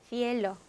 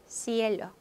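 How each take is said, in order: Both takes have the same delivery.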